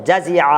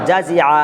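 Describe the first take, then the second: Both takes have the same delivery.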